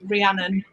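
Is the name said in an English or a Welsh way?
English. The name is said with an English pronunciation. This is how other people commonly say it. "people do call me Rhiannon"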